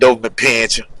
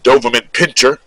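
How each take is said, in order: First: The last word is clipped to one syllable. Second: The last word is said in full with two syllables.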